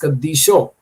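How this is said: The word ends with an 'o' vowel. "In West Syriac it is Kadisho"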